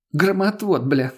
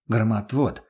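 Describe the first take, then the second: First: Mocking echo. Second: Said in the usual way. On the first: A narrator's reading. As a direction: throw his word back at him. Lena mocks his word. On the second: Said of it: "коротко ответил я".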